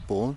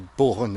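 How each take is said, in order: First: The word is said with a French pronunciation. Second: The word is said with an English-like pronunciation. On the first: "he goes born" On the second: "where I say born"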